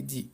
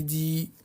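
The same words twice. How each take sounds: First: "Di" with a short vowel; teacher's short demo syllable "Di". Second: "Di" with the vowel drawn out; teacher stretching "Di" into a long syllable. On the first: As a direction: say "Di" briefly, no held vowel. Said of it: "je vais ajouter des voyelles courtes". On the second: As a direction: hold the i of "Di" long. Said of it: "je vais rajouter des voyelles longues". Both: Shown as a demonstration.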